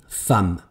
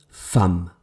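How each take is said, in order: Both takes have the same delivery.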